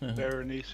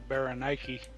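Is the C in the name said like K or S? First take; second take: S; K. First: The C is said as an S sound. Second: The C is said as a K sound. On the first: This is the modern way. "But nowadays ... say Berenice instead" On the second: This is the ancient Greek way. "Greeks would have said uh, ... C was a K sound back then"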